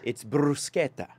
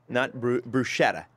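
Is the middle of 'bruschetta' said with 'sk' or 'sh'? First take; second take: sk; sh. First: The middle consonant is a hard 'sk' sound. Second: The middle consonant is a soft 'sh' sound. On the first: The speaker calls it right. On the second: The speaker calls it wrong.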